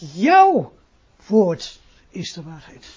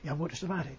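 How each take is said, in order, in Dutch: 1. De nadruk valt op jouw. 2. De nadruk valt op woord. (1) "Omdat het woordje jou zelfstandig gebruikt is" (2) "Dan gaat dicht nadruk op woord"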